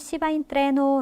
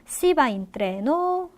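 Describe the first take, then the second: First: The pitch falls at the end like a statement. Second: The pitch rises at the end like a question. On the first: It states that one goes by train. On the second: It asks whether to go by train.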